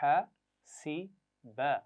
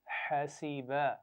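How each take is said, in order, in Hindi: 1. हर आवाज़ अलग-अलग, रुक कर कही जाती है। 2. आवाज़ें रवानी से जुड़कर एक लफ़्ज़ बनती हैं।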